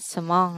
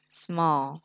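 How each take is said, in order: First: The final L sound is weak or unclear. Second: The final L sound is clearly formed. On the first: The speaker calls it wrong. "Thay vì đọc là small" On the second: The speaker calls it right. "nó đọc là small. ... lưỡi chạm lên trên, răng trên nè"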